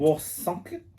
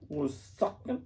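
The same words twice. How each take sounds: First: Put-on German accent. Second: Said in the usual way. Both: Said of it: "why did I do a German accent?".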